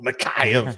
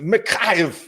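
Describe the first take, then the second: First: It is said in a raspy, throaty creature voice. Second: It is said in a normal speaking voice. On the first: "like Gollum" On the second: "you just say it like that"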